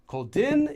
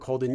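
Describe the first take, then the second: First: The pitch rises on the final syllable. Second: The pitch falls across the whole word. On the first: The speaker is talking down to the listener. The speaker calls it wrong. "Rising intonation of the final syllable" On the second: The speaker is just conveying information. The speaker calls it right. "a falling intonation of the entire form"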